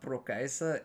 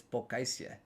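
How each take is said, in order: First: Prokaisa said with an R after the P; the old wrong way, Prokaisa with the R; wrong pronunciation. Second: Pokaisia said with no R, ending in -sia; the right way, Pokaisia with no R; Pokaisia: no R after the P, ending in -sia; corrected pronunciation. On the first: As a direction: Prokaisa said with an R, ending in -sa. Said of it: "I've been pronouncing it wrong". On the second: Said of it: "It's not Prokaisa". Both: Shown as a demonstration.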